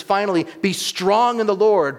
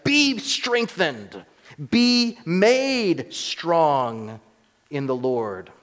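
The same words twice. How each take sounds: First: Be strong in the Lord raised high and loud; preacher's raised proclamation; emphatic quote. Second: Each word stretched out slowly and high; preacher's slow, pressed emphasis; slow emphatic stress. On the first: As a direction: ring out the verse with stress on Lord. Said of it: "in verse ten it says". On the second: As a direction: drag out be made strong with weight. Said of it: "Literally, it says". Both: Shown as a demonstration.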